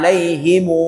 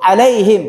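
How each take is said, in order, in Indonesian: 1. Kata itu diakhiri dengan vokal u tambahan. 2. Kata itu diakhiri dengan bunyi m.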